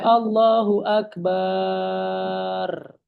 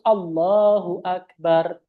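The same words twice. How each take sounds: First: The ba sound in Akbar is drawn out. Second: The ba sound in Akbar is short. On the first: The speaker calls it wrong. "wa adamu maddil ba. Nggak boleh Allahu Akbar" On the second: The speaker calls it right. "Jadi harus Allahu Akbar"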